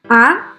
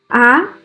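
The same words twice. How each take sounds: First: The pitch rises from middle to high. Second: The pitch rises from middle to high.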